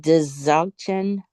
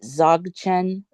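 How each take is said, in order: First: The word starts with a D-Z sound. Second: The word starts with a plain Z sound. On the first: "or do you say Dzogchen?" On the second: "Do you not pronounce the D?"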